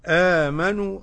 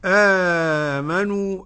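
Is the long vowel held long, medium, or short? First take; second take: short; medium. First: The long vowel is held briefly, about two counts. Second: The long vowel is held moderately, about four counts. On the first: "أدي القصر" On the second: "أدي التوسط"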